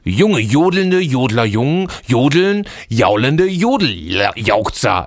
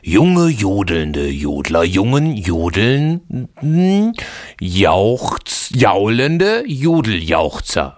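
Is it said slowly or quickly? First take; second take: quickly; slowly. First: It is said a bit faster. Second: It is said very slowly.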